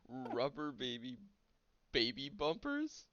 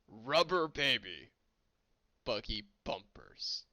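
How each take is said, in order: First: It is said in his normal voice. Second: It is said in a Klingon voice.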